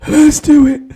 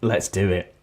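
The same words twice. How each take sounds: First: It is said in a breathless, breathy voice. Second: It is said in a plain, normal voice.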